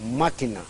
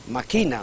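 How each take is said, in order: First: The stress is on the first syllable. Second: The stress is on the second syllable. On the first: It is the noun for a device. "Como sustantivo es esdrújula" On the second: It is a plain present form of the verb to scheme. "como inflexión del verbo maquinar es grave"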